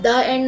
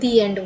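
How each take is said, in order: First: 'The' is said with a short uh vowel. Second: 'The' is said with a long ee vowel. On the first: The speaker calls it wrong. "द end नहीं" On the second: The speaker calls it right. "दी एंड बोलेंगे"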